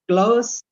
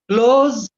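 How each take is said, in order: First: The word ends with an s sound. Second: The word ends with a z sound. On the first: The word is used as an adjective. "close is an adjective" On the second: The word is used as a verb. "Close is a verb"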